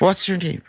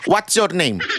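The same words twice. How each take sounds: First: It is said posh, with hissy braces-like S sounds. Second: It is said in plain, broken Filipino English.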